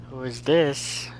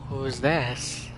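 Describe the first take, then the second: No difference in how they are said.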